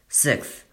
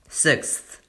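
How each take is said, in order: First: It is said fast and rushed. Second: It is said slowly and clearly.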